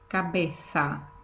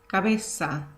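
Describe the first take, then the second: First: The z sounds like a th. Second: The z sounds like an s.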